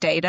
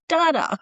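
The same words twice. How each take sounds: First: It is said in a non-Australian way. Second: It is said the Australian way. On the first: This is how most people in the group say it. "everyone says data" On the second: The speaker is marked out as Australian. "you can just pick the Australian out of the group"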